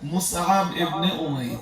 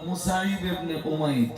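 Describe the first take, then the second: First: The first name is said as Mus-ab. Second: The first name is said as Musaib.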